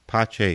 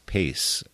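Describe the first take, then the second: First: The name ends with a 'ch' sound. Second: The name ends with an 's' sound. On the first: "this is the Italian pronunciation of it" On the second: "Most people would pronounce that as pace, regular English pronunciation"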